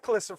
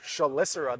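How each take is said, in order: First: The word begins with a 'k' sound. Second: The word begins with a 'sh' sound. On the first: This is how the dictionary says it. The speaker calls it right. "I'll try Calicera" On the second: This is how the team has always said it. The speaker calls it wrong. "we pronounce this Shalicera the entire time"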